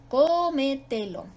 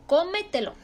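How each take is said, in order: First: Slow Cómetelo with a long CÓ; stretched stressed syllable. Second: Cómetelo in one go, stress on CÓ; stress on first syllable. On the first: Teacher repeating the example slowly, long CÓ in Cómetelo. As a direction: draw out CÓ, then each syllable of Cómetelo. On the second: Teacher giving an example, cómetelo joined up with CÓ stressed. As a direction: hit CÓ and run through cómetelo. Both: Shown as a demonstration. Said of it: "es sobre esdrújula y se acentúa".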